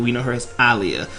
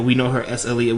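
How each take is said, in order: First: "Aaliyah" said ah-LEE-uh, open first vowel; "Aaliyah" with AH start. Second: "Aaliyah" said uh-LEE-uh, short first vowel; "Aaliyah" with UH start. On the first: Host gives the name's other known form, "Aaliyah" starting with open AH. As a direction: begin "Aaliyah" on a full AH rather than UH. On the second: Host insists on the name fans know, "Aaliyah" starting with short UH. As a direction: begin "Aaliyah" on a light, reduced UH. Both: Shown as a demonstration. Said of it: "her name was Aaliyah".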